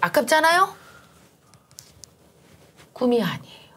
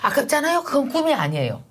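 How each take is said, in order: First: A clear pause separates the two sentences. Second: The sentences run together without a pause.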